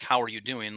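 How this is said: It is asked quickly and casually.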